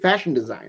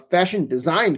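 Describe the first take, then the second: First: The stress falls on the word fashion. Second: The stress falls on the word design. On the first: The speaker calls it right. "most of the time we would say fashion design" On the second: The speaker calls it wrong. "putting the emphasis on design rather than fashion"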